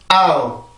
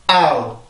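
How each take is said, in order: No difference in how they are said.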